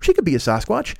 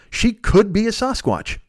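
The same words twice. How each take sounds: First: She could be a Sasquatch with She lifted on a rise; stress on she. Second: She could be a Sasquatch, slow, falling onto Sasquatch; stress on Sasquatch. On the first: Telling the audience which Khloe it is, stress on She. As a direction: lean on She, rising. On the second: Joking to the audience about Khloe, slow stress on Sasquatch. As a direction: drag it out and land on Sasquatch. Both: Shown as a demonstration. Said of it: "wherever you put the inflection".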